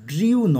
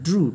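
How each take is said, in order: First: The vowel has a 'y' glide, like 'dryoo'. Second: The vowel is a plain 'oo', like 'droo'. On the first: The speaker calls it wrong. "ড্রিউ নয়" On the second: The speaker calls it right. "এটার উচ্চারণ হবে ড্রু"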